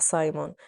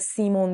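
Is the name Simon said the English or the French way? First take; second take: English; French. First: The first vowel sounds like 'eye', English style. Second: The first vowel sounds like 'ee', French style. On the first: This is how English speakers say the name. "نه سایمون" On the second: This is how the French say the name.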